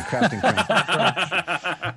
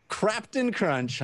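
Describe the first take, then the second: First: Slow laughing repeat. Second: Said in the usual way. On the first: Shown as a demonstration. Host savoring a viewer's funny name, laughing slowly. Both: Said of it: "I love that one".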